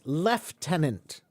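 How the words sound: It is said in a British pronunciation. "the British often say the word as lieutenant"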